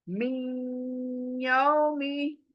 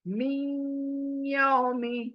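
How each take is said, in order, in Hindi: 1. n नासिका-ध्वनि के साथ y में मिल जाता है। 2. n नासिका-ध्वनि के साथ y में मिल जाता है।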